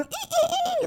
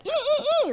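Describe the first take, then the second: First: Put-on very high childish squealing; high kid squeals. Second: Put-on high excited squealing like a child; high kid squeals. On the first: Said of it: "like one of those kids". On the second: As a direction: squeal like a little kid picking cereal. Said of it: "like a little kid in the store".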